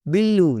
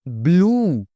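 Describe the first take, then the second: First: बिल्लू in two syllables, "bil-loo"; mispronunciation. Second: ब्लू as one long syllable, "bloo"; correct pronunciation. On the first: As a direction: put an "i" between b and l in बिल्लू. (बिल्लू, "बिल" और "लू" अलग) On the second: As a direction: join b and l tightly in ब्लू. (ब्लू एक ही साँस में, बिना "इ" के) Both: Shown as a demonstration. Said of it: "बिल्लू नहीं".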